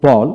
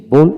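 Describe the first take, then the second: First: বল with an open "aw" vowel; teacher modelling American বল; American pronunciation demo. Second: বোল with a rounded "oh" vowel; teacher modelling British বোল; British pronunciation demo. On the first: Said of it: "প্রথমটি American উচ্চারণ". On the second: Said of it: "ব্রিটিশে বোল উচ্চারণ করা হয়". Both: Shown as a demonstration.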